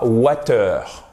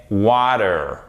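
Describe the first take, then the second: First: "water" with a crisp T and French final "eur"; mispronounced water. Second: "water" with the T tapped like a D; American water. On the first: Teacher showing learners the mistake, French-sounding "water". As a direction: say "water" French-style, like "wa-teur". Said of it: "ce n'est pas water". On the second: Teacher correcting learners' pronunciation, American "water" with D sound. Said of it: "prononcé presque comme un D". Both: Shown as a demonstration.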